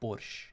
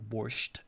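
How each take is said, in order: First: The word ends without a t sound. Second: The word ends with a t sound. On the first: This is how natives say it. The speaker calls it right. "in our pronunciation it's just like borscht, you know, without t at the end" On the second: This is the form others use. The speaker calls it wrong. "sometimes they spell it like borscht"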